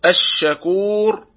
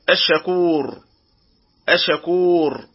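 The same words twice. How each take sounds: First: الشكور with the sheen held long and fully doubled; full doubled sheen. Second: الشكور with a short, single sh; under-doubled sheen. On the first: Tajweed teacher models الشكور properly, sheen fully doubled. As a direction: give الشكور a firm, lingering doubled sh. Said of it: "عدم كمال تشديد الحرف". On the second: Tajweed teacher shows the mistake, الشكور with weak single sheen. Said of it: "وهذا خطأ". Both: Shown as a demonstration.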